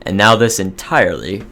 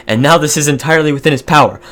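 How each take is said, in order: First: Said in the usual way. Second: Retake of "and now this is entirely within his power", faster, higher and louder; emphatic redo. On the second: Shown as a demonstration. Gamer retakes the flubbed event line, emphatic narration. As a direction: punch the corrected line home with a flourish. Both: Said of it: "somebody get me the speech therapy".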